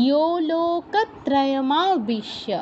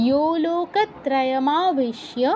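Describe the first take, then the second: The two takes are said the same way.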